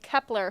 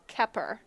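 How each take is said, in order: First: The name is said with an L sound. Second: The name is said without an L sound. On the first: The speaker calls it wrong. "I was saying Kepler for Grace Kepper" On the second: The speaker calls it right. "Grace Kepper"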